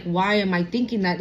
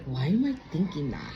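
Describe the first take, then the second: First: Said in the usual way. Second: Low, soft puzzled musing; a low, soft inner question. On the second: Retold or imitated. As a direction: wonder it quietly to yourself. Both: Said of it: "And it wasn't like".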